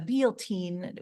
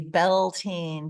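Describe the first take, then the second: First: The word ends with an 'een' sound. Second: The word ends with an 'ain' sound. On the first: "it's like a Bealteen" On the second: "In the U S, we just say Beltane"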